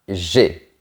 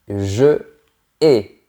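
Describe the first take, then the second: First: The vowel of 'je' is dropped, elided. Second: The vowel of 'je' is kept, no elision. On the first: The speaker calls it wrong. "et pas j'ai" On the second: The speaker calls it right. "On ne fait pas l'élision. On dit je hais"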